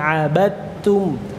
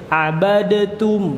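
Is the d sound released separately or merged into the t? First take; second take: merged; released. First: The d merges into a doubled t sound. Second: The d is released with a bounce before t. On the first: The speaker calls it right. "sidalnya ini tidak dibaca abad, tapi langsung masuk ke ta. Taknya ditasydidkan" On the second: The speaker calls it wrong. "Kalau dalnya harus dibaca jadi abadatum"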